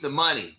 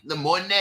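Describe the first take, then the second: First: Said in the usual way. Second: "money" in the joke "moh-neh" pronunciation. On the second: Shown as a demonstration. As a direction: end "money" on a playful "neh". Repeats joke pronunciation after plain word.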